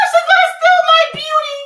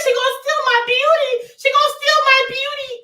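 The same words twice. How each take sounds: First: Very high loud shriek; horror-film shriek; mock terror scream. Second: High loud fearful cry; hammed-up frightened wail; mock fear. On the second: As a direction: fake panic over her beauty. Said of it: "I'm scared".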